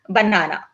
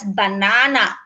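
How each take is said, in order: First: It is said with a British accent. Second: It is said with an Australian accent.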